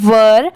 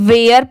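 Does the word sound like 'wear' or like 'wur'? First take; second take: wur; wear. First: The vowel is short, like in 'fur'. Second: The vowel is long, like in 'wear'. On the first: The speaker calls it right. "इसकी pronunciation है वर।" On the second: The speaker calls it wrong. "बहुत सारे लोग इसे गलत pronounce करते हैं, इसे वेयर पढ़ते हैं, बट ये रॉन्ग होता है।"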